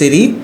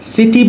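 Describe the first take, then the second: First: It is said in an American accent. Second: It is said in a non-American accent. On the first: "সিটি হচ্ছে American accent" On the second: "সিটি বলতে পারেন"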